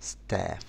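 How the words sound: It is said in an American accent. "بالامريكي بنقول staff"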